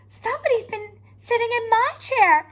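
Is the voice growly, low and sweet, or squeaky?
low and sweet. It is said in a sweet, low voice.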